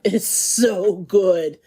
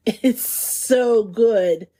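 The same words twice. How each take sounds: First: Slow, leaning on "is" with a falling end; savoring emphasis. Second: Very slow, stretching "so" long; slow savoring. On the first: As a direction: draw out "It is so good", pressing "is". Savoring the bechamel. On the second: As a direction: linger on "so" like a happy sigh. Savoring the croque madame. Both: Real, not acted.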